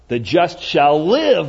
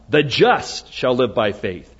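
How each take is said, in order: First: The stress is on "shall live". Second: The stress is on "the just".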